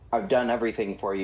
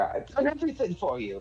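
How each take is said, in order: First: It sounds like a timid, grateful thanks. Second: It sounds pleading and desperate. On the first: "rather than like a timid thanks" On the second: "the tone is more pleading"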